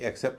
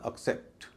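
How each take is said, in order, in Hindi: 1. पहला स्वर पूर्ण है, कमज़ोर नहीं किया गया। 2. पहला स्वर कमज़ोर है; स्ट्रेस दूसरे पर पड़ता है। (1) "न कि एक्सेप्ट जैसे कई लोग कहते हैं" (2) "इसका उच्चारण होगा एक्सेप्ट"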